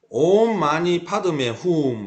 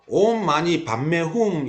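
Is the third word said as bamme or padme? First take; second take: padme; bamme. First: The third word is said as padme. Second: The third word is said as bamme. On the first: This is the form recited today. "이렇게 되어 있습니다" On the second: This is the form originally recited. "원래 불교계에서는요, ... 이렇게 외우죠"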